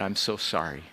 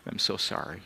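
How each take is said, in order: First: Retold sobbing apology. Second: Fading sobbing apology. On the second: Retold or imitated.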